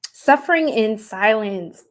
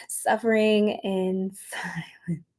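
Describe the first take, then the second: First: Said in the usual way. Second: Whisper. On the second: Shown as a demonstration. Rereading the card, amused.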